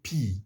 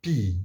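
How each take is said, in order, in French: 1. La lettre se dit comme l'anglais 'pee'. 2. La lettre se dit comme l'anglais 'pee'.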